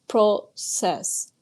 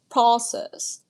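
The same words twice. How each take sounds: First: It is said with a Canadian pronunciation. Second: It is said with an American pronunciation. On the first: "Canadians pronounce process like process" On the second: "while Americans say process"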